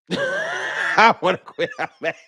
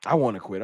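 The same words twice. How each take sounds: First: High, slow, laughing through the words. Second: Said in the usual way. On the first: Real, not acted. Fan laughing at his own frustration with the team, slow and laughing. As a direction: laugh out the complaint in mock despair.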